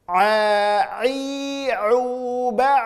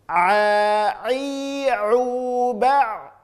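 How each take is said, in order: The two takes are said the same way.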